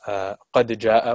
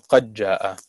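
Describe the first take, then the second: First: The d sound is pronounced before the j. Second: The d sound merges into a doubled j.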